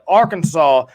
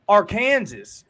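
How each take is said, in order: First: The ending sounds like saw, s silent. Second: The ending sounds like Kansas, with the s. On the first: The speaker calls it right. "is how you pronounce it" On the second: The speaker calls it wrong. "is what some people like to call it"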